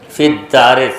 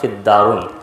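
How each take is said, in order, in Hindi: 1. शब्द का अंत -i की आवाज़ से होता है। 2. शब्द का अंत -un की आवाज़ से होता है। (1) "सही होगा" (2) "फिर भी मैं पढ़ता था"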